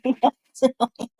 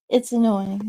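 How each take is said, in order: First: Vocal fry demo. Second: Said in the usual way. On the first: Shown as a demonstration.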